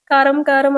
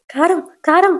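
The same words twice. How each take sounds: First: Said in the usual way. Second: Gasping from chili. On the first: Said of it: "అని". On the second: A narrator's reading. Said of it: "అన్నట్టు తాగుతానే ఉంటది".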